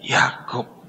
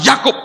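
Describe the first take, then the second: First: The name is whispered shakily and quietly. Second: The name is said firmly in a full voice. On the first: He admits his name in deep shame. The speaker calls it right. "dengan gemetar, dengan malu sekali, dia cuma berbisik" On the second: He states his name with confidence. The speaker calls it wrong. "bukan dengan tegar dia berkata"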